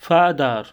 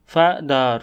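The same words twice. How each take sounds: First: Said in the usual way. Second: "father" in two beats, fa, ther; split into syllables. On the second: Shown as a demonstration. Teacher showing learners the two syllables, "father" split in two. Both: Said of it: "each of these words has two syllables".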